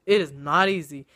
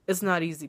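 First: "It is not easy" with stress on "It" and "not", falling at the end; emphatic repeat. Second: Said in the usual way. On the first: Shown as a demonstration. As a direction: lean on "not" to drive it home.

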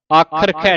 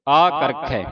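First: ਆਖਰਖੈ with an aspirated "kh" in the middle; wrong consonant. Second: ਆਕਰਖੈ with a plain "k", then "kh"; correct consonant. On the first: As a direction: say ਆਖਰਖੈ with "kh" twice. (ਆਖਰਖੈ ਵਿੱਚ ਕੱਕੇ ਦੀ ਥਾਂ ਖੱਖਾ) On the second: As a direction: keep the first k of ਆਕਰਖੈ unaspirated. (ਆਕਰਖੈ ਵਿੱਚ ਪਹਿਲਾਂ ਕੱਕਾ, ਫਿਰ ਖੱਖਾ) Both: Shown as a demonstration. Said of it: "ਆਖਰਖੈ ਨਹੀਂ ਪੜਨਾ".

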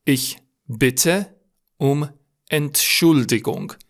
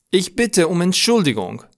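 First: Very slow, word by word with pauses; slow dictation. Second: Higher-pitched, in one flowing phrase; flowing recap. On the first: Teacher dictating a formal apology, slow and separated. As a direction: separate every word for learners. Teacher repeats phrase slowly for learners. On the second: Teacher recapping the formal apology, higher and connected. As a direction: say it through without breaks, pitched up. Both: Shown as a demonstration.

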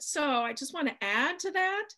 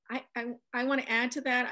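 First: Attempted British accent, higher pitch. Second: Said in the usual way. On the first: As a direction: have a shaky go at a polite British accent. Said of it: "in a very nice British accent". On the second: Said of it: "I can't do a British accent".

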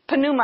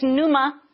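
First: Pneuma with an audible P at the start; P pronounced. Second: Said in the usual way. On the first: Shown as a demonstration. Preacher showing the Greek word, pneuma with the P sounded. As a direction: say pneuma as puh-NOO-ma, sounding the P. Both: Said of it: "you pronounce the P".

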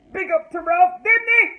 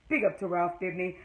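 First: Big loud praise forced out; loud grudging shout-out. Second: Softer, lower muttered praise; quiet grudging repeat. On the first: Vlogger forcing herself to praise Ralph, loud. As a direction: shout it like it pains you. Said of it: "this is hard for me to do, but I'm gonna do it". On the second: Vlogger quietly repeating her reluctant praise. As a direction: say it again under your breath. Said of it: "this is hard for me to do". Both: Real, not acted.

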